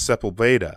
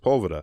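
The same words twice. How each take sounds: First: The name is pronounced the Spanish way. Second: The name is pronounced the American way. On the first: It follows the name's Spanish origin. The speaker calls it right. "no, it's a Spanish name. It's Sepulveda" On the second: It is how locals commonly say it. The speaker calls it wrong. "everybody calls it Sepulveda"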